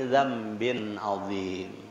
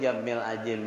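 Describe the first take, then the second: First: It starts with a dz sound, ending 'azim'. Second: It starts with a j sound, ending 'ajim'. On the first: The speaker calls it right. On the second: The speaker calls it wrong. "itu salah tuh jamil ajim"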